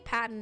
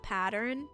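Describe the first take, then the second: First: It is said in a non-American accent. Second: It is said in an American accent. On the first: This is the speaker's own way of saying it. "I say pattern" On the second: This is how Americans say it. "not pattern, because I'm not American"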